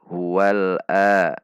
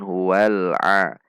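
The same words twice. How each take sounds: First: The vowel starts with a plain glottal stop. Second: The vowel starts with a tight sound from the throat. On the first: The speaker calls it wrong. "tidak dibaca a" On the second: The speaker calls it right. "namun huwal a"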